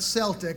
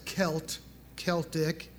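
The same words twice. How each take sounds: First: The word begins with a soft s sound. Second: The word begins with a hard k sound. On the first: The speaker calls it wrong. "not Celtic, although there are the Boston Celtics" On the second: The speaker calls it right. "but the term is Celtic"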